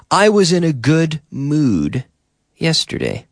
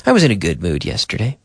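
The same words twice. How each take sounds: First: Higher, spaced out, pausing before the last word; careful model answer. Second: Fast, run-together delivery; quick natural repeat. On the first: Teacher models answer for learners, careful and higher. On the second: Teacher repeats model answer at natural speed, quick and connected. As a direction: say it quickly in one breath group. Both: Shown as a demonstration.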